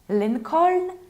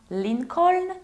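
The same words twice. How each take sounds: Both takes have the same delivery.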